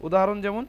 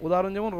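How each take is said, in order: Both takes have the same delivery.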